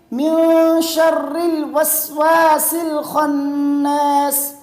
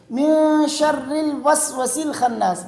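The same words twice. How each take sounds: First: "الوسواس" with long held aa, slowly chanted; correct long vowel. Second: "الوسوس" with short a, little holding; wrong short vowel. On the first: Teacher shows the right reading, long vowel. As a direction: draw out "الوسواس الخناس" in full tajweed. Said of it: "صحیح کیسے پڑھیں گے". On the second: Teacher shows the wrong reading, shortened vowel. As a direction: say "الوسوس الخناس" without the long aa. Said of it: "یہ غلط ہے". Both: Shown as a demonstration.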